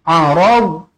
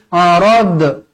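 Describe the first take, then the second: First: The final consonant is held without a bounce. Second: The final consonant is released with a bounce. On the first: The speaker calls it right. "Ini bukan huruf qalqalah, jangan lantunkan" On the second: The speaker calls it wrong. "jangan baca arad"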